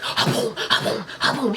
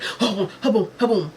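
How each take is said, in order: First: Harsh, breath-heavy imitated basket slamming; forceful mimicked "ha boom" slams; violent shaking noise. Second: Voiced imitation of a fry basket shake; everyday "ha boom" shaking sound; normal fryer-shaking noise. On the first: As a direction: imitate fries being shaken far too hard. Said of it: "He was shaking it so hard". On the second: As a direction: imitate shaking fries at ordinary force. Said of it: "that's how it would normally sound".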